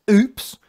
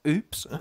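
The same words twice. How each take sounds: First: Higher, louder laughing "Oops" in a put-on voice; a hammed-up caught-out "Oops"; mock oops. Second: Said in the usual way. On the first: Mocking Tyrone's innocent act with a loud put-on oops.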